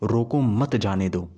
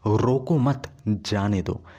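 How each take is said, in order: First: There is a pause right after 'roko'. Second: There is a pause right after 'mat'. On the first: Stop him; do not let him go. "तो इसका वही मतलब है कि उसे रोको, जाने मत दो।" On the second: Do not stop him; let him go. "तो इसका मतलब हो गया कि उसे रोकना नहीं है, जाने देना है।"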